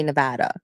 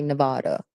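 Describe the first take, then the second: First: Nevada as nuh-VAD-uh; stressed middle of Nevada rhymes with "dad"; local Nevada. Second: Nevada as nuh-VAH-duh; outsider's Nevada. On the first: Former travel nurse showing how locals say it, Nevada as nuh-VAD-uh. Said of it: "Locals say Nevada". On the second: Warning what annoys locals, Nevada said as nuh-VAH-duh. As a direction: open "ah" in the middle of Nevada. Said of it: "They get mad if you say Nevada". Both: Shown as a demonstration.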